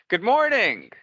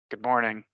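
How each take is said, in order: First: The greeting sounds warm and cheerful. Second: The greeting sounds flat and gloomy. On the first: The greeter is glad to see everyone. The speaker calls it right. "happy to see you" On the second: It may dampen people's moods. The speaker calls it wrong. "that's not going to have much of an effect. In fact, it might ruin some people's moods"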